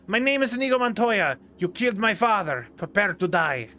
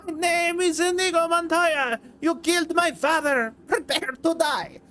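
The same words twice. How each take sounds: First: A mild vengeful duel declaration; Inigo Montoya impression. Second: Much higher, strained, over-the-top avenger; Inigo Montoya impression. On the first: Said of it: "trying to do an impression of that". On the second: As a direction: push the voice up until it nearly cracks. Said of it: "got too into trying to do an impression".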